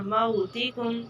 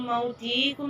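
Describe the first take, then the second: First: मौतिकुम with a short था, slowly; slow model recitation; correct reading. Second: मौतिकुम with the था drawn out; mock mistake, long था; wrong reading. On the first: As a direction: keep the था in मौतिकुम short and clear. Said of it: "था को नहीं खींचना". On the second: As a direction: stretch the था in मौतिकुम to show the error. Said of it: "मौतिकुम नहीं पढ़ना". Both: Shown as a demonstration.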